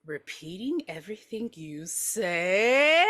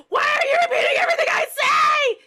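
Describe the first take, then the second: First: Slow, mocking drawn-out echo; condescending singsong repeat; talking to a toddler. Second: Very high, loud tearful shriek; frantic, full-blast yell; hysterical scream. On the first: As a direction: stretch it out patronizingly, swelling on 'say'. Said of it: "repeats her like she's two years old". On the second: Acted. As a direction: scream in exasperation at being echoed. Mother screaming at husband.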